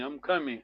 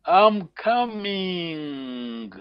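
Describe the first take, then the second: First: "I'm coming" as a low, quiet closing assertion; emphatic meaning. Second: Very slow, stretched "I'm coming"; drawn-out prompt. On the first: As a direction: drop "I'm coming" softly, short and settled. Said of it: "I mean it". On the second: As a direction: draw out "coming" in a long falling glide for the learner. Teacher gives phrase to translate. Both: Shown as a demonstration.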